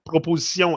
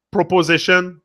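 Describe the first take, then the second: First: "proposition" said the French way, pro-po-zi-SYON with a nasal ending; French "proposition", soft -sion and nasal final vowel; French pronunciation. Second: "proposition" said the English way, pro-po-ZISH-un with a final -shun; plain English "proposition", ending in a clear -shun; English pronunciation. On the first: Showing the French twin of the English word, French pronunciation. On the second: Comparing English and French words, English version first. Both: Shown as a demonstration. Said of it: "the words are always all the same".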